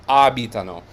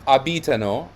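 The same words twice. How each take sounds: First: Abitano as AH-bi-ta-no; correct first-syllable stress. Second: Abitano as a-BEE-ta-no; wrong stress. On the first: Teacher correcting the wrong form, first-syllable stress. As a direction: hit the opening A of abitano, then fall. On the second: Teacher showing what not to say, second-syllable stress. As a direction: put the weight on BI in abitano. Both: Shown as a demonstration. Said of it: "Not abitano but abitano".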